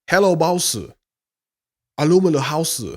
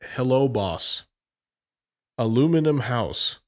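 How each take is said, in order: First: It is said in an imitated foreign accent. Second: It is said in the speaker's own plain accent. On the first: "I'm doing an impression of it" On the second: "I'm not going to do the accent"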